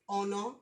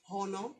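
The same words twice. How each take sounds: First: It is said plainly in a Nigerian accent. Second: It is said in a put-on American accent. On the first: The speaker calls it right. "pronounce your words honor" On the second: The speaker calls it wrong. "not honor"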